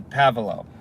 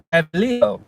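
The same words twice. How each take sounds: First: "Pavelo" said plainly as it is written; pronounced as spelled. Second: "Pavilo" higher, with Spanish-style enunciation; enunciated foreign pronunciation. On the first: Worker naming the street he is on, "Pavelo" pronounced as spelled. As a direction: read "Pavelo" by its English spelling. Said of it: "I pronounce them how they're spelled". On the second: Customer correcting the worker's street name, "Pavilo" carefully enunciated. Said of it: "she pronounces them with the enunciation". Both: Retold or imitated.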